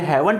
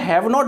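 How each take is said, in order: First: It is said as one contracted word. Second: It is said as two separate full words. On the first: "यदि मैंने हैवंट बोला तो ये single word है" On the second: "यदि मैं हैव नॉट बोल रहा हूं तो ये दो वर्ड है"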